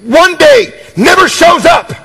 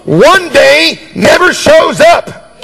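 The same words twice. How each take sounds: First: ONE DAY NEVER SHOWS UP called out high; proclaimed. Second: Each word of "one day never shows up" dragged out and hammered; preacher driving the point home to a doubting crowd, slow and emphatic. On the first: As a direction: announce it like a verdict. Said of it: "See, if you say". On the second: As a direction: lean on every word, slowly. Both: Shown as a demonstration.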